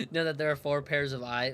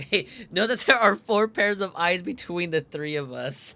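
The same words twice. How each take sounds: First: Said in the usual way. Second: Laughing through the line, louder. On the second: Acted. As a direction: reread it cracking up. Rereads same line laughing louder.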